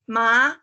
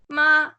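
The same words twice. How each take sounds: First: The pitch rises from mid to high. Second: The pitch stays high and level. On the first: "rising tone" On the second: "high level tone"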